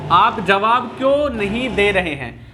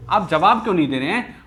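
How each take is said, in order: First: Slow, deliberate reading aloud; measured teacher's dictation; slow example sentence. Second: Said in the usual way. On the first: Shown as a demonstration. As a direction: read it out word by word for the class. Teacher reads example slowly, then repeats.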